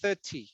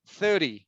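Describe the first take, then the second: First: It is said in a British accent. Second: It is said in an American accent. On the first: "but in British it's thirty" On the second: "United States, we say thirty"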